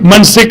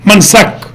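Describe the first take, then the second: First: The vowel before the last consonant is i. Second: The vowel before the last consonant is a. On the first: "मफ़इल भी आता है" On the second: "और मफल भी आता है"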